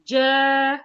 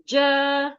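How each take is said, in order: The two takes are said the same way.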